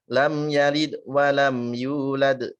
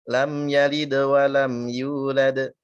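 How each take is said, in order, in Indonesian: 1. Konsonan akhir diakhiri dengan pantulan yang lemah. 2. Konsonan akhir diakhiri dengan pantulan yang jelas. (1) "Jangan ... enggak jelas mantulnya" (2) "Pantulannya mesti jelas"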